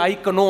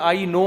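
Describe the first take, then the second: First: The word begins with a sounded 'k'. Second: The word begins without a 'k' sound. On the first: The speaker calls it wrong. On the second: The speaker calls it right.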